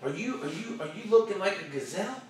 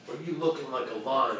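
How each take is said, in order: First: Timid gazelle question. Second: Low, soft, falling question; lion question. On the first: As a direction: lift GAZELLE up at the end. Contrasts gazelle with lion. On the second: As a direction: drop the voice for LION. Lion against the gazelle. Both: Acted.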